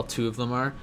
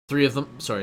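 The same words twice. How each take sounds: First: Said in the usual way. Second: Three said louder as a correction; stress on three. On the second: Real, not acted. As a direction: punch three to fix the number.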